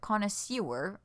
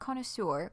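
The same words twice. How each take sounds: First: The last syllable is said like 'sewer'. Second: The last syllable is said like 'sir'. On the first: The speaker calls it right. "as in sewer gutter" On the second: The speaker calls it wrong. "Not connoisseur"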